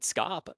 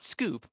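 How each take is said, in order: First: The vowel is a short o sound. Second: The vowel is a long oo sound. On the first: The speaker calls it right. "I think is how you say it" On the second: The speaker calls it wrong. "so not scoop"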